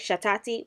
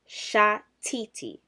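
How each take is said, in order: First: The middle vowel is an 'a' sound. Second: The middle vowel is an 'i' sound. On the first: The speaker calls it wrong. "one thousand percent wrong. Don't ever say it" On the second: The speaker calls it right. "it's going to be I E. So ani shatiti"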